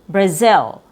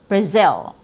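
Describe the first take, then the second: First: The second vowel is a relaxed short I. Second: The same.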